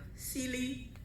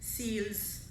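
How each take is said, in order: First: The name ends with an ee sound. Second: The name ends with an s sound.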